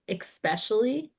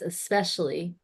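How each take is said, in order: First: It begins with an 'eks' sound. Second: It begins with an 'es' sound. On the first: The speaker calls it wrong. "I say especially with an X" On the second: The speaker calls it right. "It's especially like espresso"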